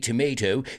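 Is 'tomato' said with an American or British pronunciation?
American. It is said with an American pronunciation. "if you're British, you don't say tomato"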